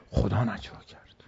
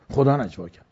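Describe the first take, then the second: First: Hushed whisper on God's words. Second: Said in the usual way. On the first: Acted. Preacher voicing the Prophet's reply, in a whisper. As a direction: drop to a breathy whisper as if sharing a secret.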